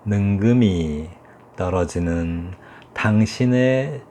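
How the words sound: Each word is held long and drawn out. "길이를 충분히 주는 거죠"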